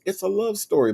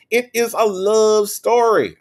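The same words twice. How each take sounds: First: Said in the usual way. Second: "It is a love story" high, loud and slow; loud, drawn-out stress on every word of "It is a love story"; emphatic insistence. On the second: Pretend. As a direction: stretch "It is a love story" out with raised pitch and volume. Emphatic repeat to viewer.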